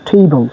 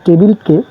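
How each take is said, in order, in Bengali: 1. প্রথম t ধ্বনিটি জোরালোভাবে aspirated. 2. প্রথম t ধ্বনিটি সাধারণ, অ্যাসপিরেটেড নয়।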